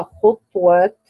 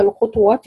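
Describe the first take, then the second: First: خطوات said "khutwat"; no vowel after the t in خطوات; silent ta. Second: للخطوات said with "khutuwat", u after the t; three-beat خطوات, u on the ta; voweled ta. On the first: Teacher showing how he reads it, خطوات with a silent ta. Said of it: "بإسكان الطاء". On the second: Teacher naming the word for students, للخطوات with a voweled ta. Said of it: "يقرأها خطوات بإسكان الطاء". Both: Shown as a demonstration.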